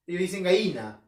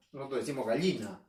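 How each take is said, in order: First: "gallina" said as "gaína" without the ll; Lima pronunciation. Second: "gallina" with a full ll, "gaʎina"; Arequipa pronunciation. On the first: Teacher contrasting the Lima word for students. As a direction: swallow the ll in "gallina". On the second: Teacher giving the local Arequipa form. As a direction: sound out the ll in "gallina". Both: Shown as a demonstration.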